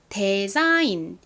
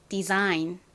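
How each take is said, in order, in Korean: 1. 첫 번째 모음은 'eh'처럼 소리 납니다. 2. 첫 번째 모음은 'ee'처럼 소리 납니다. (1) "대로 발음을 하시는 경우도 왕왕 있는데요" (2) "데자인이 아니라 디자인이다"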